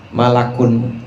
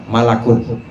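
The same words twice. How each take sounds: The two takes are said the same way.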